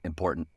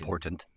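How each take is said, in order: First: The word is said fully, every sound clear. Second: The word is clipped, with sounds dropped. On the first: This is not how people from Utah say it. "not important" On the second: This is how people from Utah say it. "Important is said important"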